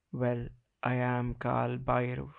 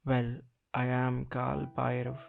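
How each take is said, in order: Both takes have the same delivery.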